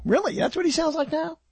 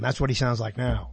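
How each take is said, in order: First: High-pitched mock disbelief, rising at the end; incredulous question. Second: Said in the usual way. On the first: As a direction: question it in a much higher, doubting voice. Acted disbelieving reply to believers. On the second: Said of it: "phantoms and ghosts and things would say".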